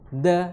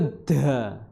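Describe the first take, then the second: First: The d sound is soft and light. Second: The d sound is heavy, Javanese-style. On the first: The speaker calls it right. "Kalau dal itu sedikit lembut" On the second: The speaker calls it wrong. "Kalau da itu Jawa"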